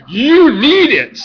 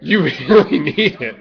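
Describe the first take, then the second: First: Hype shout. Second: Said in the usual way. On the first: Shown as a demonstration.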